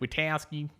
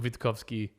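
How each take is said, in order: First: Said the Australian way, in a looser, anglicised pronunciation. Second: Said carefully, with the T and K pronounced. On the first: This is how Australians usually say the name. "Australians go with Witkowski" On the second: This is the proper way to say the name. "if you want to say it properly"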